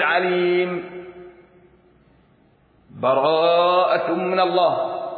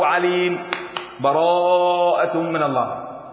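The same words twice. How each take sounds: First: The voice stops fully after the first word. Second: A short silent break follows the first word. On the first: "الوقف" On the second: "والسكت"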